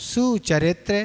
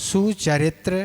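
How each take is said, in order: No difference in how they are said.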